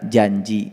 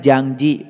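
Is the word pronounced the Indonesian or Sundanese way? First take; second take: Indonesian; Sundanese. First: It is said Indonesian-style, without the 'ang' sound. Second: It is said Sundanese-style, with an 'ang' sound. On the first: "Kalau bahasa Indonesia janji" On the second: "Kalau orang Sunda bilangnya janji pakai ang"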